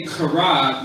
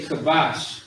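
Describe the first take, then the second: First: Kara with a forceful guttural opening; throaty, forced first sound in "kara". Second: Kabash with an easy, light k; unforced, plain k in "kabash"; not much force. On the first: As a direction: drive the start of "kara" from the throat. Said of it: "you're saying it with force". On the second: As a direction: say "kabash" without pushing from the throat. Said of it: "not really saying it with too much force". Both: Shown as a demonstration.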